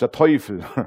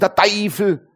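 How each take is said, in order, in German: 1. Es wird in standarddeutscher Aussprache gesprochen. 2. Es wird mit einer regionalen Dialektaussprache gesprochen.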